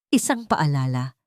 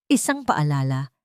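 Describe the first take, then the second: No difference in how they are said.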